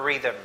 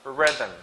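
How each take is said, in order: First: Rhythm with a long EE, "REE-thum"; rejected pronunciation. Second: Rhythm as "RIH-thum"; short vowel. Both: Shown as a demonstration. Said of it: "It's not rhythm".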